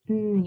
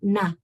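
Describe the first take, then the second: First: The n sound is held with no vowel after. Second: The n sound is followed by a short vowel. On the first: The speaker calls it right. "it's n" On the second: The speaker calls it wrong. "It's not na"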